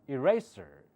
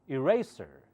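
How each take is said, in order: No difference in how they are said.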